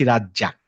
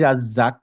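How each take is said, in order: First: The middle consonant is a j sound. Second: The middle consonant is a buzzing z sound. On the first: The speaker calls it wrong. "বলার সময় বলছি রাজ্জাক" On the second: The speaker calls it right. "লেখার সময় লিখছি রাজ্জাক"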